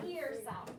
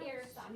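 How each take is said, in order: First: "ear" said slowly as a wrong example, the vowel of "ear" not "air"; teacher sounds out wrong "ear". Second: "air" with the open vowel as in "hair", said softly; teacher models right "air" softly; right air sound. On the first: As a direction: show the mistake, slowly saying "ear". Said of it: "No ear sound". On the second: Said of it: "It's the air sound". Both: Shown as a demonstration.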